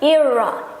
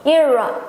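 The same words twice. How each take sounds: Both takes have the same delivery.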